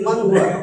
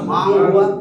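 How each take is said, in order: First: The n sound is pronounced clearly. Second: The n sound is dropped entirely. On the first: The speaker calls it right. "আমি বলতেছি মান হুয়া, তাহলে স্পষ্ট হইছে না" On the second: The speaker calls it wrong. "অস্পষ্ট হয়েছে না। কিন্তু এটা তো অশুদ্ধ"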